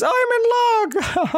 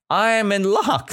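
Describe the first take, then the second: First: Very high, slow chuckled delivery; chuckling. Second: Said in the usual way. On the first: Shown as a demonstration. Teacher showing how she chuckled, chuckling. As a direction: chuckle through it, ending in a laugh. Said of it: "like this". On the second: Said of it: "she chuckled".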